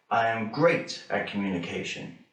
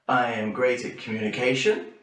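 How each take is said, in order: First: The voice falls at the end. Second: The voice rises at the end.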